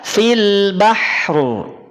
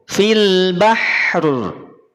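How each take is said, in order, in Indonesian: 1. Bunyi r di akhir diucapkan dengan jelas setelah h. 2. Bunyi r di akhir diucapkan dengan jelas setelah h.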